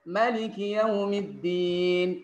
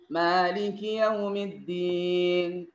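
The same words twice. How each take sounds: First: The first vowel of Maliki is short. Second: The first vowel of Maliki is long. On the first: "dengan baca pendek" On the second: "ada yang membaca dengan panjang"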